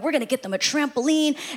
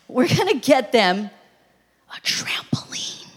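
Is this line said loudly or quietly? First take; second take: quietly; loudly. First: The line is said at a quieter volume. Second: The line is said at a louder volume.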